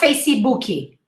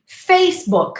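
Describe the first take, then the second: First: An extra vowel follows the final k. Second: The word ends on the k sound. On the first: The speaker calls it wrong. "not Facebooky" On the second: The speaker calls it right. "Two syllables"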